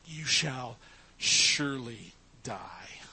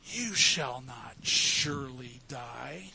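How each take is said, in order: First: You shall surely die whispered, low, with shall stretched; God's solemn whispered warning; emphatic whisper. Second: You shall not surely die slow, stretched, each word weighted; serpent's drawn-out denial; emphatic lie. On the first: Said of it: "God was emphatic". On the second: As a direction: drag it out like a sly insistence. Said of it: "Satan is emphatic here". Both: Shown as a demonstration.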